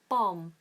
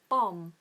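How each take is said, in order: Both takes have the same delivery.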